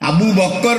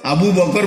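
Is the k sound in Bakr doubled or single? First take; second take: doubled; single. First: The k sound in the second word is doubled. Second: The k sound in the second word is single. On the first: The speaker calls it wrong. "Abu বক্কর বলতে" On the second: The speaker calls it right. "Abu বকর বলতে জানে"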